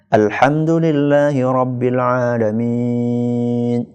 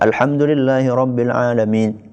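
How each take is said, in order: First: The vowels are somewhat drawn out. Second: The vowels are kept short and quick. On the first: The speaker calls it right. "agak dipanjangin" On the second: The speaker calls it wrong.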